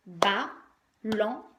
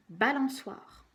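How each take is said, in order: First: "Balançoire" very slowly as ba... lan... çoire; syllable by syllable. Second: Said in the usual way. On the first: Shown as a demonstration. Teacher counting syllables with a child, "Balançoire" chopped into ba, lan, çoire. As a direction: count out "Balançoire" in three separate beats. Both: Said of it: "on va compter les syllabes".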